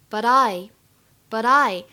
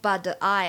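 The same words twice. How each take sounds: First: The t sounds only slightly like a d. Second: The t sounds fully like a d. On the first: The speaker calls it right. "会有一点点像的感觉" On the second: The speaker calls it wrong. "也不要100% 读成but I 啊，这样也很难听"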